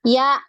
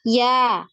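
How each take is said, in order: First: The syllable ends with a sharp glottal catch. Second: The syllable ends open, with no glottal catch. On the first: The speaker calls it wrong. "jadi seperti ada hamzah sukun nggak di belakang? ... Ada" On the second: The speaker calls it right. "Harusnya kan nggak ada hamzah sukunnya"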